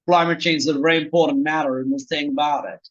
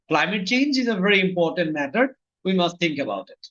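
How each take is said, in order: First: It is spoken with an American English accent. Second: It is spoken with an Indian English accent. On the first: "আমেরিকানরা বললে বলতো" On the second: "Indian অ্যাকসেন্টে উচ্চারণ করতাম আমরা এইভাবে"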